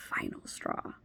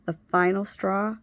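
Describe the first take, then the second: First: Breathy whispered echo of final straw; whispered repeat. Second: Said in the usual way. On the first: Real, not acted.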